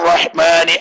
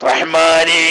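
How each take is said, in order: The two takes are said the same way.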